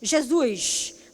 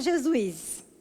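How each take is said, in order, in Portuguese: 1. É dita com sotaque do Rio de Janeiro. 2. É dita com o sotaque do próprio falante. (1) "o carioca fala" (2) "nós fala Jesus"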